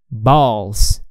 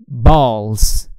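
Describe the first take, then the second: No difference in how they are said.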